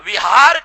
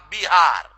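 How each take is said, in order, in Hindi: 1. यह शब्द v की आवाज़ से शुरू होता है। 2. यह शब्द b की आवाज़ से शुरू होता है।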